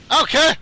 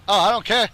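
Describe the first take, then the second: First: High, loud burst; defiant yell. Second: Said in the usual way. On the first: Real, not acted. Gamer set on blowing up his opponent, defiant yell. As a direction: throw it out defiantly. Repeats louder and higher.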